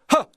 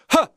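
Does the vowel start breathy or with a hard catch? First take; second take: breathy; breathy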